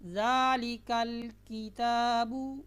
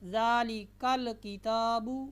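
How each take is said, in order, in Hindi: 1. लाम की आवाज़ बिना हरकत के साकिन रहती है। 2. लाम की आवाज़ हरकत के साथ बोली जाती है। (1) "सुकून के साथ पढ़ना है" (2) "ऐसे नहीं पढ़ना"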